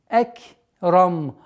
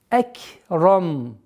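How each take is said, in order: No difference in how they are said.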